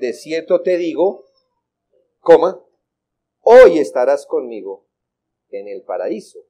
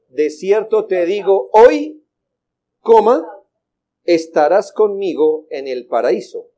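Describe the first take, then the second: First: The break comes before the word hoy. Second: The break comes after the word hoy. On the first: Being in paradise happens today. The speaker calls it right. "Nuestras versiones dicen" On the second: The speaking is done today; the timing of paradise is left open. The speaker calls it wrong. "¿Dónde colocaron la coma?"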